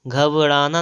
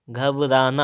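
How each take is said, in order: First: "घबराना" softened, b toward v; wrong consonant. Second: "घबराना" with clear b and plain r; correct form. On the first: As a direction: say "घबराना" as ghav-raanaa. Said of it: "घबराना नहीं होता है". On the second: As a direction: say "घबराना" as ghab-raanaa. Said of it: "घबराना होता है". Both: Shown as a demonstration.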